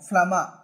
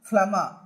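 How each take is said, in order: No difference in how they are said.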